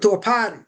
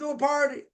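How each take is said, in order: First: The r in party is dropped. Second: The r in party is pronounced.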